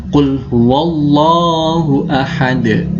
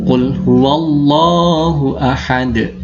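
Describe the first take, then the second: The two takes are said the same way.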